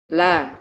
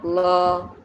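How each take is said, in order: First: The vowel is a thin, open 'a'. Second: The vowel is a heavy, rounded 'o'. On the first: The speaker calls it right. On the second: The speaker calls it wrong.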